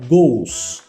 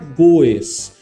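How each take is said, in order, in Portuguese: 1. A terminação é só um som de S, uma sílaba. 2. A terminação é pronunciada como uma sílaba extra separada. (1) "vai ficar goes, tá legal? Então é como se tivesse só o S mesmo" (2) "nós não vamos pronunciar, não vai ficar goes"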